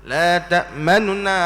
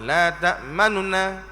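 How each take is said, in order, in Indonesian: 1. Vokal nun pertama diucapkan sangat singkat. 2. Vokal nun pertama diucapkan sangat singkat.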